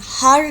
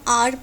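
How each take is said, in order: First: The word starts with an audible h sound. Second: The word starts with a vowel, no h. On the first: The speaker calls it wrong. "हार नहीं पढ़ते हैं" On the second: The speaker calls it right. "यहाँ पर हम आर पढ़ते हैं"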